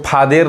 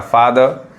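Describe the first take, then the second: First: फादर misread as "faa-DER", clear "e" in the last syllable; फादर with a full "der" ending; wrong spelling pronunciation. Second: फादर with unstressed "-er" as "ar"; correct "er" sound. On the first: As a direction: say फादर wrongly as "phaa-dayr", sounding out the E. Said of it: "फादर नहीं कहेंगे, गलत हो जाएगा". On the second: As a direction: say फादर as "FAA-dhar". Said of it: "ईआर आ रहा है तो और पढ़ा रहा". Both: Shown as a demonstration.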